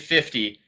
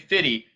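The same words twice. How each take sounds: First: The word is said carefully, with a crisp t. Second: The word is said casually, with a softened t. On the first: The speaker calls it right. "I say fifty because I'm proper" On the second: The speaker calls it wrong. "I don't say fifty"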